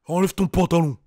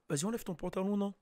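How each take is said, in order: First: Deep, heavy menacing order; aggressive rapper voice. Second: Much softer, casual coaxing; cute and harmless. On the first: Acted. Imitating the rapper ordering a girl, heavy and aggressive. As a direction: imitate a big threatening voice. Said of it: "ça fait plus agression". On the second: Shown as a demonstration. Speaker to a girl in his own voice, soft and cute. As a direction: say it small and soft, as a mild suggestion. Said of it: "c'est mignon".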